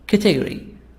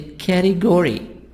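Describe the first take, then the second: First: It is said with a British accent. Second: It is said with an American accent.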